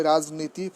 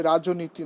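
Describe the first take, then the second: First: রাজনীতি as raj-niti, no linking o; correct pronunciation. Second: রাজনীতি as rajo-niti, extra o after j; wrong pronunciation. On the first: Teacher correcting the exception for students, correct pronunciation. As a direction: say রাজনীতি with j straight into n. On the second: Teacher showing students what to avoid, wrong pronunciation. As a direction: say রাজনীতি with an added middle o. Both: Shown as a demonstration. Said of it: "নয়".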